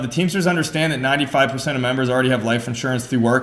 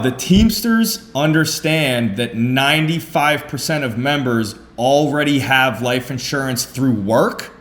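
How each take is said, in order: First: It is delivered in a flat, plain reading voice. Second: It is delivered with lively, emphatic energy. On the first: The speaker calls it wrong. "just reading it like" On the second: The speaker calls it right. "the way that I actually present"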